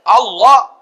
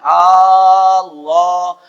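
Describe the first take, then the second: First: The first vowel is said short. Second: The first vowel is drawn out long. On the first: It names God. The speaker calls it right. "Kalau Allah Tuhan kita" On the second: It becomes a question: is it God? The speaker calls it wrong. "Mun A-nya dipanjangin"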